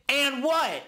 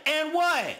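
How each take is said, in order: First: High, taunting "and what?"; defiant challenge. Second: Escalating challenge. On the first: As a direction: throw the challenge back. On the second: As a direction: push the taunt further up. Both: Retold or imitated. Scarface defiant.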